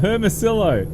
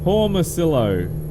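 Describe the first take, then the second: First: The name begins with a 'her' sound. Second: The name begins with a 'hor' sound. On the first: The speaker calls it right. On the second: The speaker calls it wrong. "No, not Hormicillo"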